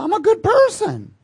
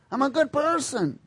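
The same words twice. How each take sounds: First: Much higher, louder smug whine; mock smug good person. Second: Higher, more muted smug repeat; mock good person. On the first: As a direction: parody a self-satisfied believer, pitched way up. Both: Mocking a self-righteous churchgoer.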